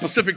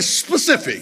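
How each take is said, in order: First: The word starts without the initial s sound. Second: The word starts with a clear s sound. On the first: The speaker calls it wrong. "Don't say Pacific, not like the ocean" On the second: The speaker calls it right. "Say specific"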